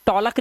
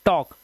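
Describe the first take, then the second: First: टॉलक with the l sounded; two syllables, टॉ-लक, audible l; wrong pronunciation. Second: टॉक with silent l; correct pronunciation. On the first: Teacher warning against misreading, टॉलक with l. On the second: Teacher correcting the misreading, टॉक without l. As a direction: say टॉक as one syllable, no l. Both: Shown as a demonstration. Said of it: "टॉलक नहीं पढ़ेंगे".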